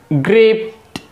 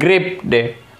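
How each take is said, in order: First: The word ends in a plain t sound. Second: The word ends in an extra id syllable. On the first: The speaker calls it right. "Its actual pronunciation is gripped" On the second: The speaker calls it wrong. "not gripped"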